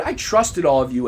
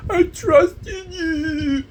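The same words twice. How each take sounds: First: Said in the usual way. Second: High, long-drawn mock whine; bratty seven-year-old taunt; mocking like a child. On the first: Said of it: "I remember writing on the board". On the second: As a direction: jeer it back in a stretched kiddie wail. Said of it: "that's a seven-year-old".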